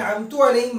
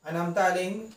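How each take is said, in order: First: The first word ends with a 'u' vowel. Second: The first word ends with an 'a' vowel. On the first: I bestowed favor upon them. The speaker calls it wrong. "मैंने इनाम किया। ... अगर आप पढ़ देते हैं तो माना में फसाद पैदा होगी" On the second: You bestowed favor upon them. The speaker calls it right. "तूने इनाम किया।"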